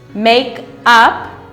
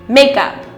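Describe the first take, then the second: First: The two words are said separately. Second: The two words are linked together quickly.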